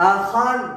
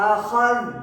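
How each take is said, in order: Both takes have the same delivery.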